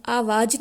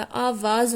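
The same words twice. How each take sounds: First: "आवाज़" as aavaaj, ending on j; mispronounced "आवाज़" without the nukta z; wrong j sound. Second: "आवाज़" as aavaaz, ending on a buzzing z; "आवाज़" pronounced with the nukta z; correct z sound. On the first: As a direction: show the mistake: "आवाज़" with j for final z. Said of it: "आवाज़ नहीं होता". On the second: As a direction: correct it: "आवाज़" with final z, not j. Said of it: "आवाज़ होता है". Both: Shown as a demonstration.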